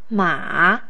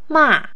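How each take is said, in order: First: The pitch dips low and then rises. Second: The pitch starts high and falls low.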